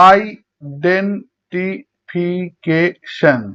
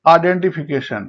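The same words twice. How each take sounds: First: identification very slowly in six beats; syllable by syllable. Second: Said in the usual way. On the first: Shown as a demonstration. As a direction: break identification apart with even pauses. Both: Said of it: "ছয়বার উচ্চারণ করা হয়".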